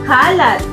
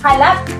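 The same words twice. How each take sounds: First: The stress is on the first syllable. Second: The stress is on the last syllable. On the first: Things out of place; mess or dirt. "ito ay nasa diing malumay" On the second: Scattered or spread everywhere, widely known. "kung ito ay ating bibigkasin ng mabilis"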